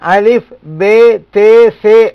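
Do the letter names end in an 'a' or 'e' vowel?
e vowel. The letter names end in an 'e' vowel. This follows the Urdu way of naming the letters. The speaker calls it wrong. "இந்த உருது அமைப்புல"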